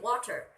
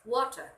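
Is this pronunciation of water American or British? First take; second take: American; British. First: It is said in an American accent. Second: It is said in a British accent. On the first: "talking to an American person, they can probably understand when you, you say water" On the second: "You have to pronounce it as water"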